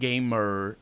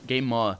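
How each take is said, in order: First: It is said in an American accent. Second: It is said in a British accent.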